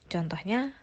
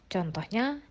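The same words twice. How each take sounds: The two takes are said the same way.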